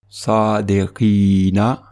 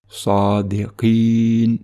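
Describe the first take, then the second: First: The word is said in its full connected form. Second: The word is said in its shortened pausal form. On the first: The reciter continues into the next word. "sans faire de pause" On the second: The reciter stops after this word. "comme si on faisait une pause"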